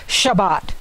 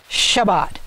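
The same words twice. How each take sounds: Both takes have the same delivery.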